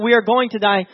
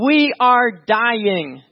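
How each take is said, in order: First: Said in the usual way. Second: Each word of "We are dying" stretched and weighted; emphatic panicked plea. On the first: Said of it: "It's not". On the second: Acted. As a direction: drag out "We are dying" very slowly. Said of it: "they're saying".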